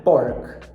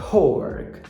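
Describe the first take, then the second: First: Pork with no puff after the P; dry, hard P starting pork; unaspirated P. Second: Pork opening with a puff of air; breathy burst on the P of pork; aspirated P. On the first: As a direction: mistaken pork, P left unaspirated. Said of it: "não é pork". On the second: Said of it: "que por sinal também é aspirada". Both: Shown as a demonstration.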